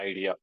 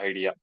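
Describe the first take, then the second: The two takes are said the same way.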